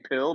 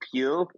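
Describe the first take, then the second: First: The vowel is short, as in pill. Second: The vowel is long, as in peel. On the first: The people on the show say it this way. "They're saying it like that" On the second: This is the word they actually mean. "but peel"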